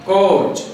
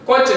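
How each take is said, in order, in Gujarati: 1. આ સ્વર ખેંચાયેલો અને લાંબો છે. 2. આ સ્વર ટૂંકો અને ઝટપટ પૂરો થાય છે. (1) "થોડુંક હંમેશા લંબાવીને બોલાતું હશે" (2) "કોચ નહીં"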